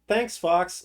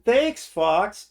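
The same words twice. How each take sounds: First: It is said flatly, without any feeling. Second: It is said with heartfelt relief and gratitude. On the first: The speaker is not really paying attention. The speaker calls it wrong. "Like he's not even fucking paying attention" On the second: The speaker was in real danger and is grateful. The speaker calls it right. "I thought they had me"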